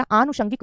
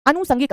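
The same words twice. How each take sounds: First: आनुषंगिक with long "aa" and a "sh"; correct form. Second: अनुसंगिक with short "a" and plain "s"; wrong form. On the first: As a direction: say आनुषंगिक as "aa-nu-shan-gik". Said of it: "आनुषंगिक होता है". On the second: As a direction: say अनुसंगिक as "a-nu-san-gik". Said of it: "अनुसंगिक नहीं होता बेटा". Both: Shown as a demonstration.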